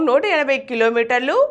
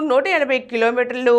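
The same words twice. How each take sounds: The two takes are said the same way.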